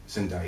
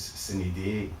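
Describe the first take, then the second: First: It is said in the local Glasgow way. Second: It is said in the classical Latin way. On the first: "as I would say" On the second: "the correct way to say it is sine die"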